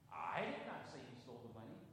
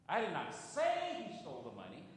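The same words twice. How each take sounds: First: The stress is on the word I. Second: The stress is on the word say.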